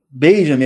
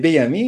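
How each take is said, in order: First: The J is said with a 'zh' sound. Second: The J is said with a 'y' sound. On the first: The speaker calls it wrong. "então não fala Benjamin" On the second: The speaker calls it right. "é Benjamin"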